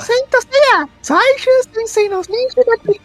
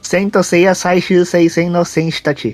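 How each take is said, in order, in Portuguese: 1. É dito com uma voz fofa de menina. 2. É dito com uma voz simples e comum.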